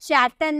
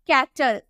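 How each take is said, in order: First: The word begins with a ch sound. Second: The word begins with a k sound. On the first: The speaker calls it wrong. "चैटल नहीं" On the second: The speaker calls it right.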